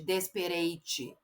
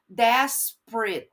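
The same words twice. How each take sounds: First: The ending is pronounced like 'ate'. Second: The ending is pronounced like 'it'. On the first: The speaker calls it wrong. "Eu não falo ... Isso é um erro comum dos brasileiros" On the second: The speaker calls it right. "eu faço o som de it"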